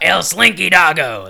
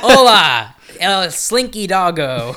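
First: Slow, louder Spanish announcer with a laugh; Spanish announcer accent. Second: Slow, drawn-out Spanish ride announcer; Spanish announcer accent. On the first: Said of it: "That's more accurate". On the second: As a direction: announce it like a Spanish theme park voice. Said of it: "the Spanish voice comes on". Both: Retold or imitated.

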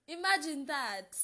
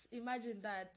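First: Loud, high burst of amazement; Imagine that, loud and high; excited exclaim. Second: Said in the usual way. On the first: Real, not acted. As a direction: blurt it out in wonder.

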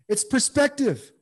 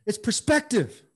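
First: "It's perspective" again slower and higher, each syllable weighted; slow emphatic repeat. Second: Said in the usual way. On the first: Real, not acted. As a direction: drive "perspective" home slowly. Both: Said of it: "repeats phrase for emphasis".

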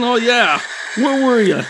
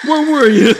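First: Mock scolding mom. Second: Higher, louder repeat of the scolding question; mother scolding her lost son, now louder; louder scolding mom. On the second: Retold or imitated. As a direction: hit it harder the second time, like a mom losing patience. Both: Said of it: "she was like".

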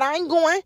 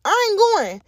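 First: Said in the usual way. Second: I ain't going pushed up high and hard; louder, firmer refusal. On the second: Real, not acted. Podcaster refusing God's sending exes, firm raised refusal. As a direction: insist this time, no budging.

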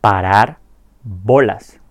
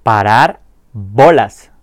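First: "Parar" rising, pause, then "bolas" falling; split into words. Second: "Parar bolas" said slowly and clearly, stress on "bolas"; slow model pronunciation. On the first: Teacher separates "Parar" and "bolas" with a pause. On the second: Teacher models "Parar bolas" slowly, clear and deliberate. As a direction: spell out "Parar bolas" slowly for learners to copy. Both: Shown as a demonstration. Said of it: "Empecemos diciendo la expresión como tal".

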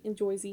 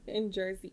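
First: "Jersey" said as "Joisey" with an oy vowel; Jersey accent. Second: Jersey accent. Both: Shown as a demonstration. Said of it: "how you say mozzarella in New Jersey language".

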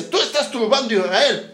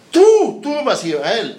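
First: Said in the usual way. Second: Slow, louder, pointed; forceful retort. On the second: Acted. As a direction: throw the accusation back hard. Elías throws the accusation back.

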